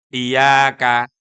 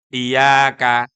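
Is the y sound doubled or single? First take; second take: single; single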